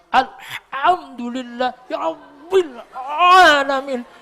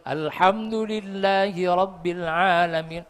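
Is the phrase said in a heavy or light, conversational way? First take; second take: heavy; light. First: It is said with heavy, exaggerated throat force. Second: It is said lightly, like normal speech. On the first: The speaker calls it wrong. "diabot-abot dhewe" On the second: The speaker calls it right. "kayak ngomong niku lho"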